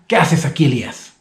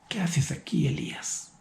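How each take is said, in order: First: It sounds like an angry God. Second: It sounds like a loving, desperate father.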